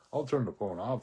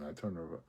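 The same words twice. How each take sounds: First: Louder, pushed restart on "turn". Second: Said in the usual way. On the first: Real, not acted. Correcting himself to the camera, louder.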